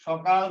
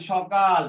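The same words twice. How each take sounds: First: সকাল said emphatically with a long, doubled k; stretched k in the middle of সকাল; doubled consonant. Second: Said in the usual way. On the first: Shown as a demonstration. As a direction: hold the k in সকাল, then release it hard: shok-kal. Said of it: "শব্দকে জোর দিয়ে উচ্চারণ করার জন্য". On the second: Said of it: "সকাল থেকে সকাল".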